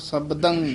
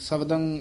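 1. b ਧੁਨੀ ਸਾਫ਼ ਉਚਾਰੀ ਜਾਂਦੀ ਹੈ। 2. b ਧੁਨੀ ਕਮਜ਼ੋਰ ਹੈ ਜਾਂ ਛੱਡ ਦਿੱਤੀ ਜਾਂਦੀ ਹੈ। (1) "ਇਹ ਬੱਬੇ ਬੋਲਨੇ ਹਨ" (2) "ਇਸ ਤਰ੍ਹਾਂ ਨਹੀਂ ਬੋਲਣਾ"

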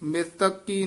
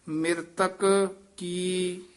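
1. ਦੋਵੇਂ ਸ਼ਬਦ ਬਿਨਾਂ ਵਿਰਾਮ ਦੇ ਇਕੱਠੇ ਬੋਲੇ ਜਾਂਦੇ ਹਨ। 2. ਦੋਹਾਂ ਸ਼ਬਦਾਂ ਵਿਚਕਾਰ ਛੋਟਾ ਠਹਿਰਾਅ ਹੈ। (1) "ਨਹੀਂ ਬੋਲ ਦੇਣਾ" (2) "ਇੱਥੇ ਠਮਕ ਲਾ ਦੇਣੀ ਹੈ"

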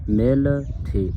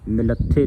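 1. ਇਕਹਿਰੇ 'th' ਨਾਲ ਦੋਵੇਂ ਅੱਖਰ ਵੱਖ-ਵੱਖ ਰਹਿੰਦੇ ਹਨ। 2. ਦੋਹਰੇ 'th' ਨਾਲ ਦੋਵੇਂ ਅੱਖਰ ਆਪਸ ਵਿੱਚ ਮਿਲ ਜਾਂਦੇ ਹਨ। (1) "ਮਿਲ ਥੇ ਇਸ ਤਰ੍ਹਾਂ ਪੜ੍ਹਨਾ ਹੈ" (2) "ਮਿਲੱਥੇ ਨਹੀਂ ਪੜ੍ਹਨਾ"

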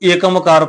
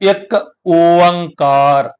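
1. ਇਹ ਜੋੜ ਕੇ ਇੱਕ ਸ਼ਬਦ ਵਜੋਂ ਬੋਲਿਆ ਜਾਂਦਾ ਹੈ, ekamkar। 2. ਇਹ ਦੋ ਸ਼ਬਦਾਂ ਵਜੋਂ ਬੋਲਿਆ ਜਾਂਦਾ ਹੈ, ik onkar। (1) "ਬਹੁਤ ਸਾਰੀਆਂ ਸੰਗਤਾਂ ਇਹਨੂੰ ਏਕਮਕਾਰ ਪੜ੍ਹ ਜਾਂਦੀਆਂ ਨੇ" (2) "ਇਹਦਾ ਸਹੀ ਉਚਾਰਨ ਆਪਾਂ ਕਰਨਾ ਹੈ"

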